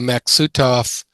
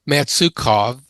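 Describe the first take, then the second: First: The middle consonants sound like 'ks'. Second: The middle consonants sound like 'ts'. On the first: The speaker calls it right. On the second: The speaker calls it wrong.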